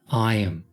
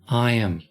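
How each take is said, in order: Both takes have the same delivery.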